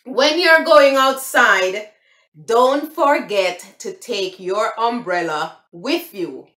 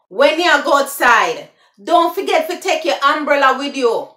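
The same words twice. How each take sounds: First: Slow, careful standard English; proper English. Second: Loud Jamaican patois, higher. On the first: Teaching viewers the proper English way, slowly. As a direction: enunciate When you're going outside in standard English. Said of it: "the proper way would". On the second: Giving viewers the patois version, in Jamaican patois. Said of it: "that's the patois". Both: Shown as a demonstration.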